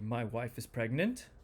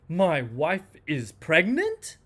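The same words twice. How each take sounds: First: It sounds mildly unsure, with only a small rise. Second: It sounds strongly disbelieving, rising very high. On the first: The speaker is somewhat unsure it is true. "so weak uncertainty" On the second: The speaker cannot believe it is true. "Strong disbelief"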